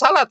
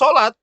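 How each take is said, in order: First: It is said with plain Indonesian sounds. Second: It is said with Arabic-style sounds. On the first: The speaker calls it wrong. "jangan salat ya" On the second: The speaker calls it right. "Tetap saja sholat"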